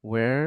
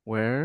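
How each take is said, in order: The two takes are said the same way.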